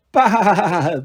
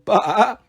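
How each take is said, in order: First: Long, stuttering sheep laugh-baa; mock laughing bleat. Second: Shorter wobbled sheep baa; ordinary mock bleat. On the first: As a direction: stretch the baa into a wobbling chuckle. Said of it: "it sounds more like". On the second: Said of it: "more like ba than ba". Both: A narrator's reading.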